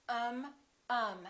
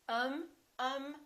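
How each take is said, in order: No difference in how they are said.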